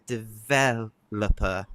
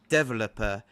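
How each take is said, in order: First: The stress is on the second syllable. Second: The stress is on the first syllable. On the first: This is the British and American pronunciation. "in British and American English, we emphasize the second syllable" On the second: This is the Indian English pronunciation. "the Indian English um, emphasizes the first syllable"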